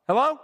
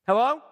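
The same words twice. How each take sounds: The two takes are said the same way.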